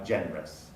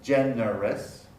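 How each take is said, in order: First: Generous as gen-rous; quick genrous; two-syllable generous. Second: Slow gen-er-ous; generous fully sounded; three-syllable generous. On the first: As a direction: drop the schwa in generous. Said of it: "is now generous". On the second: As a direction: keep all of generous. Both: Shown as a demonstration.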